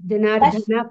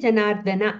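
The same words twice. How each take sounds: First: The 'da' syllable is said with extra force. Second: The 'da' syllable is said plainly, without extra force. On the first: The speaker calls it wrong. "ఆ దాకి ఒత్తు పెట్టద్దండి ... జనార్దన కాదు" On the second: The speaker calls it right. "Janardhana అంతే"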